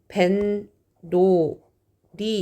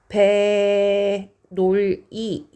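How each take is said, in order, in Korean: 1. 첫 음절 뒤에 ㄴ 소리가 덧붙어요. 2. 음절을 따로 읽고 ㄴ 소리는 덧붙지 않아요. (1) "발음은 벤, 노, 리 이렇게 발음이 나거든요" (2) "이렇게 만났어"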